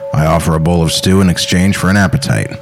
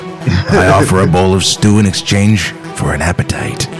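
First: It is said in a plain, ordinary voice. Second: It is said in a deep, creepy British accent.

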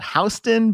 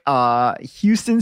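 First: It is pronounced the local New York way. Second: It is pronounced the usual non-local way. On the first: This is how locals say the street name. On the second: This is how outsiders say the name.

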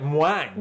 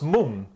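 First: The word begins with a 'mw' glide. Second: The word begins with a plain 'm'. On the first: The speaker calls it wrong. "you went mwang" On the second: The speaker calls it right. "So it's mung"

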